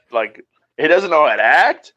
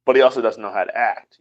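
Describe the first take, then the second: First: "act" lifted and rising at the end; "act" pushed up, a questioning lilt; stress on act. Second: "he" stressed, lower overall; low voice, weight on "he". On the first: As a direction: lean on "act" with a rising tune. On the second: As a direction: hit "he", letting "act" drop low. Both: Shown as a demonstration.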